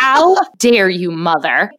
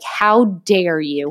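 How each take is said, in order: First: Outraged dog. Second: Slow, indignant mock glare voice; offended dog. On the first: Pretend. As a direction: demand it like a wronged diva. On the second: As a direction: drag out an outraged how dare you. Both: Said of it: "she stares at me like".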